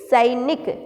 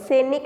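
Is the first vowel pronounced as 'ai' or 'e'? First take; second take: ai; e. First: The first vowel is an 'ai' sound. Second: The first vowel is a plain 'e' sound. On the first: The speaker calls it right. "सैनिक ऐसे बोलते हैं हम" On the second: The speaker calls it wrong. "सैनिक नहीं बोलते"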